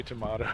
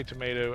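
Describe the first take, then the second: First: Tomato with a broad ah, to-MAH-to; tomato pronounced to-MAH-to; tomato the British way. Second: Said in the usual way. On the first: Shown as a demonstration. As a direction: say tomato as to-mah-toe, vowel like father. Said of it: "others say". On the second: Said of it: "You say".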